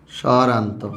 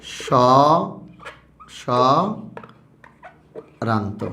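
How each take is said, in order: First: Said in the usual way. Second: স্বরান্ত stretched very slowly; teacher drawing out স্বরান্ত; drawn-out answer. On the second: Shown as a demonstration. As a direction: hold স্বরান্ত out for the class. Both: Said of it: "মুক্তাক্ষরের একটা নাম কি বলতো".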